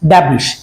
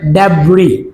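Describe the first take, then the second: First: The word ends with a sh sound. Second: The word ends with a vowel sound. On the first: The speaker calls it wrong. "অনেকেই বলে থাকি ড্যাবরিশ" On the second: The speaker calls it right. "Remember এটা উচ্চারণটা হবে ড্যাবরি"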